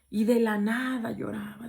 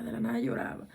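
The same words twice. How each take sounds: First: Said in the usual way. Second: Whispered echo. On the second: Shown as a demonstration. Narrator whispers the crying girl's habit to listeners, hushed. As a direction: drop to a low, hushed whisper on "de la nada lloraba". Repeats the line, then whispers it.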